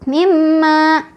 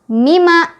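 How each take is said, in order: First: The doubled m is nasalized but held briefly. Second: A single m is said with no nasal hold. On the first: "dengungnya kurang ya, kurang ditahan" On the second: "Yang salah mima, itu mah udah tidak ada tasdid, otomatis tidak ada dengung"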